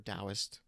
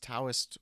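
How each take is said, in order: First: The word begins with a D sound. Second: The word begins with a T sound. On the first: "It's either a T or a D" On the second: "It's either a T or a D"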